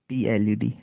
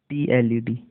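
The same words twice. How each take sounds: No difference in how they are said.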